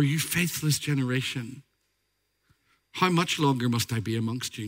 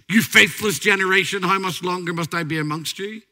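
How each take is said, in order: First: It is said in a weary, sorrowful tone. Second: It is said in a harsh, angry tone. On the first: He is grieving over the people's unbelief. The speaker calls it right. "Read it with care" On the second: He is scolding the people. The speaker calls it wrong. "He sounds almost angry"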